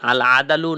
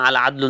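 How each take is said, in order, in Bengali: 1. d ও l-এর মাঝে একটি ছোট স্বরধ্বনি উচ্চারিত হয়। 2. d ও l-এর মাঝে কোনো স্বরধ্বনি উচ্চারিত হয় না। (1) "আদালু জবর দেওয়ার" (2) "দালের মধ্যে সাকিন দিয়ে"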